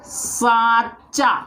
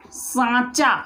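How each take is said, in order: First: सांचा drawn out slowly, nasal vowel held; teacher slowly models सांचा; slow demo. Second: Said in the usual way. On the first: Shown as a demonstration. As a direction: stretch सांचा so the nasal आं is heard. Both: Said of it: "इसके बाद मैं बोलूं".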